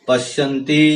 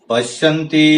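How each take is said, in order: No difference in how they are said.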